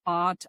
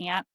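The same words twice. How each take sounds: First: "aunt" said AHNT; others' way of saying aunt. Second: "aunt" said like ANT; own hard-vowel aunt. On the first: Retold or imitated. Showing how other people say it, aunt as AHNT. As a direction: say "aunt" with a broad ah. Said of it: "what else do they say". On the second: Shown as a demonstration. Telling friend her own way, aunt as ANT. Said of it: "I say".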